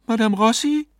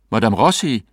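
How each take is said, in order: First: High, questioning woman's voice; wife's anxious query. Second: Firm address in his ordinary register; husband calling. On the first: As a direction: ask for the medium, high and rising. Wife questions the stunned medium. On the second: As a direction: call the stunned medium, falling at the end. Husband calls the stunned medium. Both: A narrator's reading.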